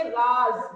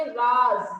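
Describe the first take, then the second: First: Raaz, with a z sound in राज; राज read correctly as raaz; right reading. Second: Raaj, with a plain j in राज; राज read as raaj, the wrong way. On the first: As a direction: say राज ending in a clear z, as the nukta asks. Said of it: "क्या पढ़ेंगे". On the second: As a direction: say राज with a hard j like jar. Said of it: "राज नहीं पढ़ेंगे". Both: Shown as a demonstration.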